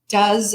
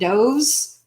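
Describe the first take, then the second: First: The vowel is a short 'uh' sound. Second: The vowel is a long 'oh' sound. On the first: It is the verb form. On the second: It is a plural noun.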